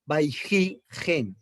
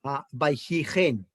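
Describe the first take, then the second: First: "Vaihigen" stretched out syllable by syllable; very slow demo. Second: "Vaihigen" said slowly with the stress on hi; slow Hebrew reading. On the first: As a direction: spell out "Vaihigen" slowly to the class. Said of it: "donde tengo el cursor señalando". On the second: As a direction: draw out "Vaihigen" for the students. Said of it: "mírela acá". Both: Shown as a demonstration.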